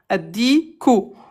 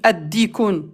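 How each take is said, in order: First: The word ends without an n sound. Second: The word ends with an n sound. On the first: The speaker calls it right. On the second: The speaker calls it wrong. "Tu peux pas dire al-dikun, ad-dikun. Non"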